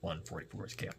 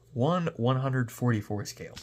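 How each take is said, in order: First: The word 'one' is said only once. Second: The word 'one' is said twice in a row. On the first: The speaker calls it wrong. "I don't know why I say it that way" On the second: The speaker calls it right. "See, not that hard"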